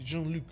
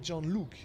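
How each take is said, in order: First: Luc has a French vowel sound. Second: Luc rhymes with the English word Luke. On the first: The speaker calls it right. "it should be Jean-Luc" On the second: The speaker calls it wrong. "they pronounce Jean-Luc like Luke"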